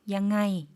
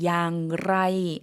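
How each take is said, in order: First: The word is said shortly without the r sound. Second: The word is said fully with an r sound. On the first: This is the easier spoken colloquial form. "구어로 조금 더 발음하기 편하게 양아이 이렇게 짧게" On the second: This is the standard form of the question word. "의문조사에서 어떻게는 양라이"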